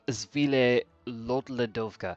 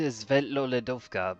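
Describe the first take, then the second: First: The name begins with a 'zvee-leh' sound. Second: The name begins with a 'svet' sound. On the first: The speaker calls it wrong. "He's pronouncing it wrong" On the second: The speaker calls it right. "I can get you to Svetloledovka"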